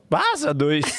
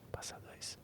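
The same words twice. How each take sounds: First: It is said loudly. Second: It is said very quietly. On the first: "fui falar mais alto" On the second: "bem baixo, assim"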